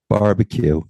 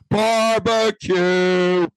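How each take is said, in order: First: It is said with little energy. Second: It is said with more energy.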